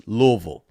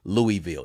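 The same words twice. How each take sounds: First: Louisville shortened to LUH-vul; local pronunciation. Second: Louisville as LOO-ee-vill, three syllables; outsider's pronunciation. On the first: Host gives the correct local form, Louisville as LUH-vul. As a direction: run Louisville into two syllables, LUH-vul. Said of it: "It's Louisville". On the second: Host shows how outsiders give themselves away, Louisville as LOO-ee-vill. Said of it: "You can always tell". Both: Shown as a demonstration.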